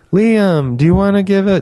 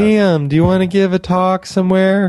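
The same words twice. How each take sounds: First: High, bright-eyed friend voice, a bit louder; imitating Nicole's voice. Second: Imitating Nicole's voice. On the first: Imitating his friend Nicole inviting him to give a talk, high and eager. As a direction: mimic how she talks, pitched way up. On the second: Imitating Nicole asking him to speak somewhere, high and eager. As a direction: pitch it way up like her. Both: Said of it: "that's how she talks".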